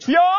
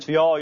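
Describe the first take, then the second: First: It is said very loudly. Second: It is said fairly quietly.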